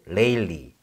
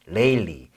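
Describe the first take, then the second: No difference in how they are said.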